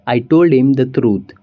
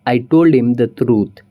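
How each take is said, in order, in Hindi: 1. 'him' छोटा होकर 'im' जैसी आवाज़ में बोला जाता है। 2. 'him' छोटा होकर 'im' जैसी आवाज़ में बोला जाता है।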